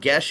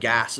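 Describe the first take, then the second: First: The word sounds like 'gesh'. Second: The word sounds like 'gas'. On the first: This is the adapted form the group uses. "Gesh is like kind of how it's uh, been formulated" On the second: This is the original Irish pronunciation. "It's more like gas"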